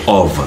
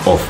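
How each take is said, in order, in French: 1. Le mot se termine par un son V. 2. Le mot se termine par un son F. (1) "c'est plutôt of. ... le F se prononce ici comme un V" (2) "ça ne se prononce pas comme ça"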